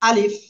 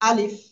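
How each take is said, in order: No difference in how they are said.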